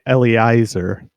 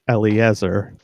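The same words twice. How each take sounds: First: The middle vowels are said as 'ei'. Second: The middle vowels are said as 'ie'. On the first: This is how most people say the name. The speaker calls it wrong. "Most people say Eliezer" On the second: This is the name's true pronunciation. The speaker calls it right. "but it's actually Eliezer"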